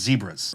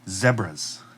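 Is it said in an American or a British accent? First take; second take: American; British. First: It is said in an American accent. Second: It is said in a British accent.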